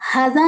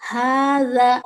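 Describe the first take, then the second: First: The first vowel is short. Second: The first vowel is long. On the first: The speaker calls it wrong. "हाज़ा नहीं करेंगे है ना, हा को ज़बर की आवाज़ नहीं देंगे" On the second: The speaker calls it right. "हाज़ा दो दो हरकत"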